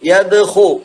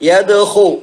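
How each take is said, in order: First: The middle consonant is a rasping kh sound. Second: The same.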